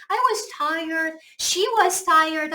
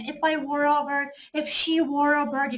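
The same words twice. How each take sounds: First: Slow example with was; slow normal-tense example. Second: Slow, soft example with were; slow subjunctive example. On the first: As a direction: read was sentences slowly. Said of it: "하고 was 쓰지". (was 예문을 천천히) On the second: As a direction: read were sentences slowly. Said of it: "무조건 were를 써야 돼". (were 예문을 천천히) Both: Shown as a demonstration.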